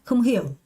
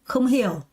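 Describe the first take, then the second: No difference in how they are said.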